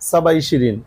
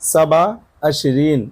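First: Twenty is said in the relaxed spoken form, starting 'i'. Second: Twenty is said in the careful standard form, starting 'a'. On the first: This is the everyday spoken form. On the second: This is the fully correct formal form.

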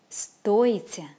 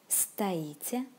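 First: The stress is on the first syllable. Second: The stress is on the second syllable. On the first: It means to cost. "the stress goes on the first syllable" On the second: It means to stand. "the stress goes on the second syllable"

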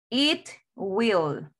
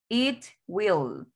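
Both takes have the same delivery.

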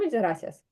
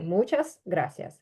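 First: The final s is barely heard, relaxed speech. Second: Every letter is said clearly, including final s. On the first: This is how people casually say it on the street. "вони кажуть «muchas gracias». І іноді це останнє «с» майже не буде звучати" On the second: This is careful speech as a student. "ми зараз читаємо чітко всі літери"

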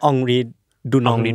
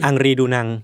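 First: The name is said with 'ong' vowel sounds. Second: The name is said with 'ang' vowel sounds. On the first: The speaker calls it right. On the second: The speaker calls it wrong.

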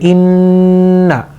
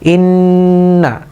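No difference in how they are said.

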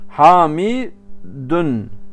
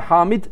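First: The name ends with a stressed -un sound. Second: The name ends bare, with no final vowel. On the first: The speaker calls it right. "Sonunu vurgulayarak okuyacaksın" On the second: The speaker calls it wrong. "Yani bile hamid diyemezsin"

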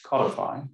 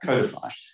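First: The first syllable sounds like 'cod'. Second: The first syllable sounds like 'code'. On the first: This is the American way of saying it. "as you Americans say, codify. That reminds me of a fish" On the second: This is the speaker's own national way of saying it. "that's why we say codify"

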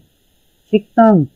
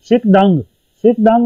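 First: The second syllable starts with a tense consonant. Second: The second syllable starts with a plain consonant. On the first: "जब आप इसे प्रोनाउंस करेंगे तो शिक तंग" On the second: "शिक दंग है लिखने में"

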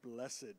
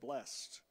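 First: The word is said in a formal churchy way. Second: The word is said in a plain everyday way. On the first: The speaker is very churchy. "you say blessed" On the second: The speaker is talking in a normal way. "you really know you're churchy if you don't say blessed"

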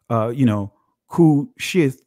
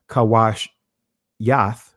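First: The word is said in its usual modern form. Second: The word is said in an ancient Hebrew form. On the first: "it says" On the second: "from a ancient Hebraic pronunciation"

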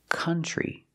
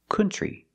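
First: The first vowel sounds like the vowel in cup. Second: The first vowel sounds like the vowel in foot. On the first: The speaker calls it right. "It's pronounced country. ... We use the sound like cup and up and cut" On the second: The speaker calls it wrong. "The word is not pronounced country. ... We don't use the sound like foot and book"

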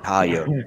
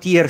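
First: The word is pronounced with an English-style sound. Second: The word is pronounced just as it is spelled. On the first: The speaker calls it wrong. "facevo quello anglosassone" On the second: The speaker calls it right. "si pronuncia come si legge"

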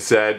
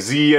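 First: The letter is said the Canadian way, zed. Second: The letter is said the American way, zee.

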